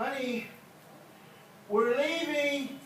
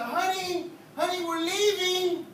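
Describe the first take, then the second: First: Drawn-out high call; calling out to wife. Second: High, slow drawn-out call; calling out to wife. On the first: Preacher calling to his wife on the way out, drawn-out high call. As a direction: sing it out to the house. Preacher acts spouse leaving for church. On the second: Preacher calls to his wife on the way out, slow high call. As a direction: holler it sweetly out the door. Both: Acted.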